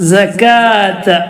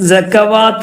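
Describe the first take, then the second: First: No w sound; the long a follows directly. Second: A w sound is said before the long a. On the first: The speaker calls it right. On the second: The speaker calls it wrong.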